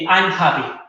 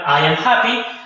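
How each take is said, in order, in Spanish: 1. I y am se unen en una sílaba corta. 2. I y am se dicen como dos palabras separadas. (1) "a corto" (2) "la forma larga"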